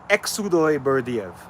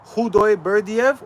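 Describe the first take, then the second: First: The first name begins with a ks sound. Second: The first name begins with an h sound. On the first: The speaker calls it wrong. "the second one" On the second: The speaker calls it right. "The first one"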